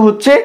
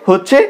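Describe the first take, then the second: No difference in how they are said.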